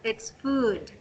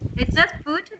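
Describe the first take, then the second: First: The vowel is said long. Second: The vowel is said short. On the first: The speaker calls it right. "The U is a little, a bit, a little bit longer than cook and book and good" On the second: The speaker calls it wrong.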